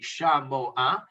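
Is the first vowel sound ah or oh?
ah. The first vowel is pronounced ah.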